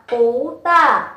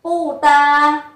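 First: "pú ta" with "pú" rising and "ta" falling sharply; "pú ta" as spoken after tone change; changed-tone reading. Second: "Pu ta" held evenly, no rise on "Pu"; written tones. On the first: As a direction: lift "pú", then drop "ta". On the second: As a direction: say "Pu ta" as written, before the tone change. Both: Shown as a demonstration. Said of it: "thì đọc là pú ta".

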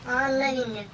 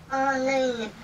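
Both takes have the same delivery.

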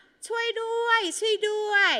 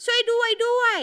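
First: High, drawn-out call for help; acted cry for help. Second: High mock cry with "ด้วย" doubled; wrong repetition, called out. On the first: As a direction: call out slowly, pitched way up, as if for rescue. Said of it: "มีเสียงตะโกนว่า". (แกล้งร้องตะโกนขอความช่วยเหลือเสียงสูงลากยาว) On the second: Shown as a demonstration. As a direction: call it out high, oddly repeating only "ด้วย". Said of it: "เราจะไม่อ่านว่า". (ร้องเสียงสูงแบบอ่านผิด ซ้ำแค่ "ด้วย")

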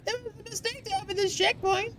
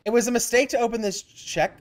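First: High, soft, quick mock voice; mimicking falsetto. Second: Said in the usual way. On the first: Player parroting the game's line, high soft mimicry. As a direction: parrot it back small and high-pitched.

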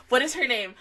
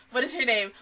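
No difference in how they are said.

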